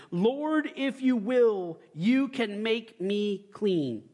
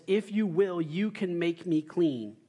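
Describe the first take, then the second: First: Slow, higher begging plea; pleading leper. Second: Said in the usual way. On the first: Acted. Leprous man on his face begging Jesus, slow pleading voice. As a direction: beg slowly, stretching each word. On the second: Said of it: "what does he say?".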